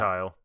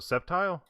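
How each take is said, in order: First: The word begins with a K sound. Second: The word begins with an S sound. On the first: The speaker calls it wrong. "now if it was a K, maybe" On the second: The speaker calls it right. "the C is just makes it a strong S"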